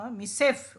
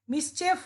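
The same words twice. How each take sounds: First: মিসেফ said without the ch sound, slow and level; the right মিসেফ, said slowly; correct pronunciation. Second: মিসচেফ said with a ch sound in the middle, rising; the mistaken মিসচেফ, said high like a question; wrong pronunciation. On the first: Teacher correcting students: মিসেফ, slow and plain. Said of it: "মিসেফ উচ্চারণ actually". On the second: Teacher showing students the wrong way: মিসচেফ with ch. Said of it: "এটা মিসচেফ না". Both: Shown as a demonstration.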